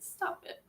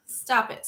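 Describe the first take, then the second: First: Whispered, flustered stop it; hushed bashful protest; embarrassed whisper. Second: Louder, firmer stop it; louder mock protest; playful protest. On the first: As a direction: breathe it out, embarrassed. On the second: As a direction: push back with a laugh. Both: Real, not acted. Embarrassed by compliments.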